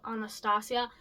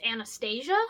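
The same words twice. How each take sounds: First: Anastasia as ah-nah-STAH-see-uh, with STAH stressed; pronounced the other way. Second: Anastasia as an-uh-STAY-zhuh, with STAY stressed; pronounced one way. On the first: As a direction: say Anastasia with open ah vowels and an s sound. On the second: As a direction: say Anastasia with a flat a and a zh sound. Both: Shown as a demonstration. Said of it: "two ways to pronounce Anastasia".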